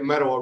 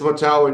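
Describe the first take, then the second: First: The name is said quickly and run together. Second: The name is said slowly with each syllable clear. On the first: The speaker is not from the village. The speaker calls it wrong. "if you're not from the village, then you say it Metawa real fast" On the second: This is how the residents say it. The speaker calls it right. "So it's Matawa, and you've said it correct"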